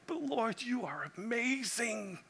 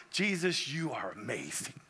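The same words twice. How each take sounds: First: Awed and hushed, rising high then soft; a soft, high whisper of wonder to the Lord; hushed awe. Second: Hushed awe. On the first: Pastor marvelling at Jesus, soft and high with awe. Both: Retold or imitated. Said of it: "You're like".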